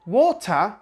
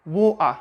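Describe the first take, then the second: First: "water" with a clear T; pronounced T. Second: "water" with a catch in the throat for the T; Cockney-style glottal "water". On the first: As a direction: say "water" as "waw-tuh". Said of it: "some British people say water". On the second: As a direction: say "water" as "waw-uh", T swallowed. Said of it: "but others say water". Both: Shown as a demonstration.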